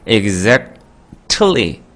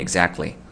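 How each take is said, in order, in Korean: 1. 가운데 t는 분명하게 발음돼요. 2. 가운데 t는 목구멍에서 삼켜져요. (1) "exactly 이렇게 하는 게 너무 힘들기 때문에" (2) "그냥 먹는 거예요, 여기로. ... 발음이 exactly 이렇게 되는 거죠"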